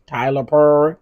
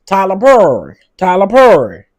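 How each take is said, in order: First: Said in the usual way. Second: Loud, raised-pitch call-out impression; Monique. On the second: Calling out Tyler Perry in a borrowed voice, loud impression. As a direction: belt the name out in a celebrity impression. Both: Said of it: "in my Monique voice".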